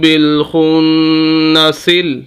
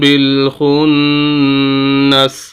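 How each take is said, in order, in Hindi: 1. शब्द सीधे अगले शब्द में मिल जाता है। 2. शब्द के बाद वक़्फ़ (ठहराव) के साथ खत्म होता है। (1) "मिलाकर पढ़ा जाए" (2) "अब जब वक्फ कर लेंगे"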